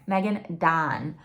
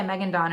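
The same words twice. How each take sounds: First: "Megan Dawn" repeated slowly and distinctly; careful pronunciation. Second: Said in the usual way. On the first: Shown as a demonstration. Repeating the author's name after admitting an accent, slow careful "Megan Dawn". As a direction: take your time over each word of "Megan Dawn". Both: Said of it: "I have a Michigander accent".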